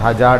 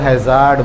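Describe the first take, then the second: First: The word is said with a 'j' sound. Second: The word is said with a clear 'z' sound. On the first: This is how people locally say it. The speaker calls it wrong. "हजार्ड नहीं" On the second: This is how it is really said. The speaker calls it right. "वो हैज़ार्ड बोला जाता है"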